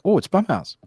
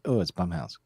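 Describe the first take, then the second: First: It sounds excited and eager. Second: It sounds let down and disappointed.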